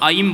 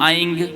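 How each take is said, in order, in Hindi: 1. यह अक्षर m ध्वनि पर समाप्त होता है। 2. यह अक्षर ng ध्वनि पर समाप्त होता है। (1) "तो आप उसको ऐम बोलेंगे" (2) "ये अस्पष्ट है, ये अशुद्ध है"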